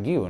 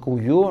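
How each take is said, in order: First: The name is pronounced the Catalan way. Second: The name is pronounced with a different sound. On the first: The speaker calls it right. "es que se dice Mark Guiu" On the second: The speaker calls it wrong. "no Guyu"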